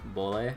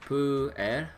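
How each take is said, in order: First: The word is run together smoothly, sounding L-like. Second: The word is said with separate, distinct parts. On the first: This is how the family says it. "say it smoothly enough to go like bole" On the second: This is how the spelling looks. "it looks like pu er or something like that"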